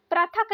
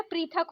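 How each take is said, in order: First: पृथक said prathak, raised; wrong pronunciation. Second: पृथक said prithak with ri; correct pronunciation. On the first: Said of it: "नहीं". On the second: Teacher gives the right form: careful pronunciation. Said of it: "नहीं होता है". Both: Shown as a demonstration.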